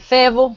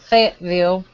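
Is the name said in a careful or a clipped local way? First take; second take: clipped; careful. First: The name is said in a clipped local way. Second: The name is said fully and carefully. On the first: This is the way local people say it. "I say Fayetteville" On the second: This is the way it is supposed to be said. "I don't say Fayetteville"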